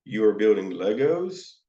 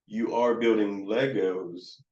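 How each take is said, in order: First: "Legos" sweeping up at the end; questioning tune. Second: Slow, "Legos" sinking at the end; trailing down. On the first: Adult questioning a kiddo, rising on "Legos". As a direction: ask it, lifting the end of "Legos". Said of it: "an adult who is questioning me". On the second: Counselor to child, slow with "Legos" trailing down. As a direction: let "Legos" drop away, no question. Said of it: "kind of that down". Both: Shown as a demonstration.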